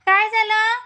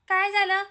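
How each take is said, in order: First: Concerned call. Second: Said in the usual way. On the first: Real, not acted. Baby crying, mother calls. (रडणाऱ्या बाळाला आईची काळजीची मोठ्याने हाक)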